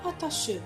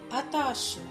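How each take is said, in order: First: A vowel sound is pronounced at the end. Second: No vowel sound is pronounced at the end. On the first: The speaker calls it wrong. "on dit pas attache" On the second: The speaker calls it right. "on dit attache. Lettre aspirée... on ne prononce pas E à la fin"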